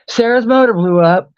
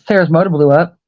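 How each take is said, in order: First: It is said in a sad, pleading tone. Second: It is said in a light, offhand tone. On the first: It is a hint asking for money. The speaker calls it wrong. "That's dry begging" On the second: It is just a piece of news. The speaker calls it right. "in passing ... just like in conversation"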